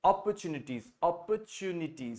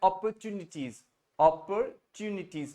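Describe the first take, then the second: First: British "opportunities" without a strong r; softly, slowly say "opportunities" the British way; British style. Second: American "opportunities" with an r and a crisp t; US style. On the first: Teacher recommends the simpler style, British pronunciation. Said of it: "simple बोलना है British style में". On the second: Teacher demonstrates another style, American pronunciation. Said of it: "इसको एक और US style में बोलते हैं". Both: Shown as a demonstration.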